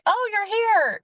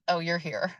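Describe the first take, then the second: First: It sounds pleased and welcoming. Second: It sounds displeased and unwelcoming.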